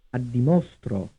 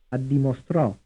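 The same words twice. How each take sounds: First: "Addimostro" with the beat on MO; third-syllable stress. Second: "Addimostrò" with the beat on STRÒ; final-syllable stress. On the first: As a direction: lean on "mo" in "Addimostro", drop off after it. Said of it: "stressed on the third syllable". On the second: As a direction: land on the last syllable of "Addimostrò". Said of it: "stressed on the fourth syllable". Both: Shown as a demonstration.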